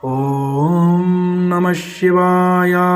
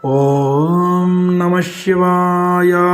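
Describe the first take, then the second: The two takes are said the same way.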